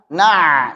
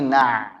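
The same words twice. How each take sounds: First: The ain is pressed very hard. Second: The ain has moderate pressure. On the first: The speaker calls it wrong. "Jangan terlalu ditekan. Na, salah" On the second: The speaker calls it right. "Tapi na, na, na. Cukup"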